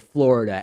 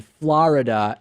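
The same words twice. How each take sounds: First: Said in the usual way. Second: "Florida" with an open "ah", as FLAH-rida; New York pronunciation. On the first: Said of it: "instead of Florida". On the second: Retold or imitated. Host showing how Howard Stern says it, "Florida" as FLAH-rida. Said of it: "and Florida instead of Florida".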